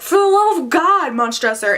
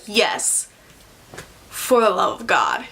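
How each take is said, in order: First: High, mock-desperate plea; hammed-up cry for mercy; pleading for help. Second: Low, calm echo of the plea; deadpan, pitched-down retort; unmoved reply. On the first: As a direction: act out a victim begging, pitch leaping up at the start. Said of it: "he's, like, pleading for help". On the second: Acted. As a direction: answer the begging coolly, lower and unhurried. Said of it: "And he's like".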